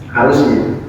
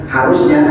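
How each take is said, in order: The two takes are said the same way.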